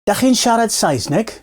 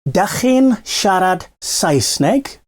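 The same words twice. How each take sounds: First: The phrase is said at normal speed. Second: The phrase is said a bit more slowly.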